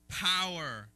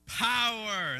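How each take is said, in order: First: The word is said at ordinary loudness. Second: The word is said loudly and forcefully. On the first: "Say it with me again" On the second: "Let's say it with power"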